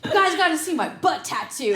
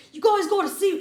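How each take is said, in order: First: Laughing quote. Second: Bad New Zealand accent, high and loud; a clumsy Kiwi accent. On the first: Retold or imitated. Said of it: "But he's like". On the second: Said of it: "that was the worst New Zealand accent ever".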